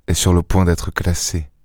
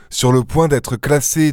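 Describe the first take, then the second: First: Said in the usual way. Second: "Sur le point d'être classée" said slower and higher, each word pressed; slow insistent repeat. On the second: Acted. Lupin insisting to Ganimard the case will close, slow and emphatic. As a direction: lean on every word to drive it home.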